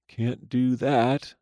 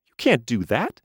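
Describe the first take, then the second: First: Turning the words over, amused; musing. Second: High, protesting doll voice; the toy objects sharply; indignant doll. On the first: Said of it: "she mused". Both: A narrator's reading.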